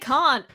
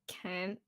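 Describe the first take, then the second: First: It is said in a British accent. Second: It is said in an attempted American accent. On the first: "I just have to say can't" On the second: "if I try to say that word, can't. It's like can't. It sounds really unnatural"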